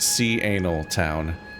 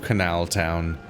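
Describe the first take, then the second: First: The first syllable is said as 'see'. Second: The first syllable is said as 'ka'. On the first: The speaker calls it right. "It's Sea Anal Town" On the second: The speaker calls it wrong. "I mispronounced it"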